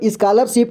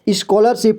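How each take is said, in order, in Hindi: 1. पहला स्वर सीधा 'aa' जैसा सुनाई देता है। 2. पहला स्वर 'o' जैसा सुनाई देता है। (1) "इसको नहीं पढ़ेंगे" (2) "बल्कि इसको स्कॉलरशिप पढ़ेंगे ठीक है ... क्योंकि इसमें भी ओ के जैसे साउंड आएगा"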